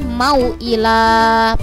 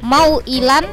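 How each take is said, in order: First: The word ends with a long vowel, no n. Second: The word ends with a short vowel plus n. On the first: The reading stops at this word. "kalau diwakofkan berarti mau ila, panjang" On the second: The reading continues on to the next word. "Contohnya tadi mau ilan"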